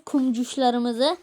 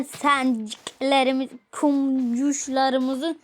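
First: Slowly savoured Kumcuşlarımızı; slow motion. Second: Very slow, drawn-out kumcuşlarımızı; slow motion. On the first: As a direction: draw out Kumcuşlarımızı fondly. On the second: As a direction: stretch kumcuşlarımızı out syllable by syllable. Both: Shown as a demonstration. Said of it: "tatlı bir ad bulmam gerekiyor".

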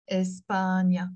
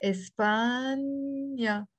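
First: Said in the usual way. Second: "España" very slowly, stretching the middle "paaan"; slow teacher's model of España; drawn-out demonstration. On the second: Shown as a demonstration. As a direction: hold the long a in España before the last syllable. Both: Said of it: "we will pronounce it".

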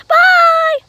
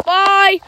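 First: Loud, very high squeal of a voice; Chica character. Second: Said in the usual way. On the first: Pretend. Chica signs off to viewers, high squeaky voice. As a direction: pipe it up high and long. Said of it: "So, Chica, say bye".

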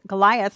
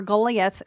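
First: "Goliath" said as guh-LIE-uth; English pronunciation. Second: "Goliath" said as GOH-lee-ath; original-name pronunciation. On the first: Teacher restating the star's name, Goliath pronounced guh-LIE-uth. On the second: Teacher describing the comets' path, Goliath pronounced GOH-lee-ath. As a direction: say "Goliath" with a long GOH and an ee in the middle. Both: Shown as a demonstration. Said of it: "as we would say it".

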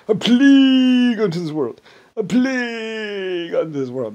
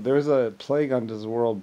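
First: Loud, high wail with PLAGUE stretched out; hammed-up psychotic cry of doom; psychotic doomsayer. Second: Said in the usual way. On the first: Imitating a man gonna plague the world, psychotic doomsayer. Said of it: "that was psychotic".

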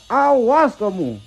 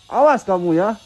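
First: Awas kamu stretched slow and higher, teasing; slow, higher playful menace on Awas kamu; drawn-out mock threat. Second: Said in the usual way. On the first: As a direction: drag out Awas kamu like a cartoon villain.

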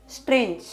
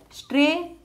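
First: Said in the usual way. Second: "strange" stretched into a high "stray", then broken off; syllable by syllable. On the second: Shown as a demonstration. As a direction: draw out the first beat of "strange" alone. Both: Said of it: "two syllable word".

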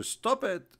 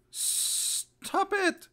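First: Said in the usual way. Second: Very high, strained mock command; exaggerated squeal. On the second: Shown as a demonstration. Mocking the advice against yawning, exaggerated high squeal.

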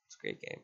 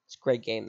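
First: Breathy whisper to himself; whispered aside. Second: Said in the usual way. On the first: Real, not acted. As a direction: whisper it under your breath. Repeats line, second time whispered.

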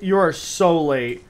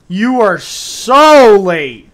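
First: Said in the usual way. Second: Slow, loud, high drawn-out tease; mock scolding. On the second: Real, not acted. Streamer teasing a late viewer, loud and drawn out. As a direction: stretch every word to rib him.

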